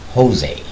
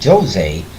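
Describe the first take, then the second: First: The name has a Spanish pronunciation. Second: The name has a Portuguese pronunciation. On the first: The speaker calls it wrong. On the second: The speaker is Portuguese. The speaker calls it right. "That's why I say Jose"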